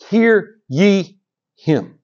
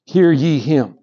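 First: Very slow, weighty voice of God; slow solemn divine command. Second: Said in the usual way. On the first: Shown as a demonstration. Preacher voicing God from the cloud, slow and solemn. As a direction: let each word fall slowly and heavy. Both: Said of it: "the same thing it said".

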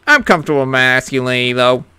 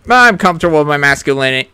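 First: Even lower, gruffer macho rumble; deeper macho voice. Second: Low, fast macho voice. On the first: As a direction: push the tough-guy voice lower. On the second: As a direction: growl it like a tough guy. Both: Acted. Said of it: "sound manly".

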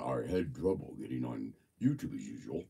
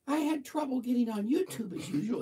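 First: Very low, softer reading voice; deep voice guess. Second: Much higher, pitched-up reading voice; high voice guess. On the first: Host guessing how Robert's voice sounds, in a deep voice. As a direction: drop the line way down deep. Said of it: "deep or high or medium". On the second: Host guessing how Robert's voice sounds, in a high voice. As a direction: try the line way up high. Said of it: "if his voice is deep or high or medium". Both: Shown as a demonstration.

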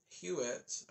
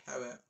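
First: Hewitt as HYOO-it; HYOO-it reading. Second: Hewitt as HOW-it; HOW-it reading. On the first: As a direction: start Hewitt with a hyoo sound. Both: Shown as a demonstration. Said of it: "or Hewitt".

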